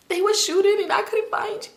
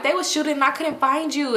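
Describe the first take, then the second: First: High-pitched, hammed-up crying voice. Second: Said in the usual way. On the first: Girl explaining to her found cousin, acted high crying. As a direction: squeal it through pretend sobs. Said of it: "I'm crying. I'm like". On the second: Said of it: "Let me talk regular".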